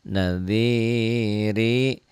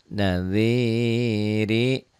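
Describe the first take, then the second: Both takes have the same delivery.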